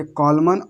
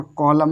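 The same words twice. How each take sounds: First: कॉलमन ending "man"; contrast, N sounded. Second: कॉलम ending on M; contrast, N silent. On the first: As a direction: say कॉलमन with the last N audible. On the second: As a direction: say कॉलम with no N at all. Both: Shown as a demonstration. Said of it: "कॉलमन और कॉलम में अंतर देखो".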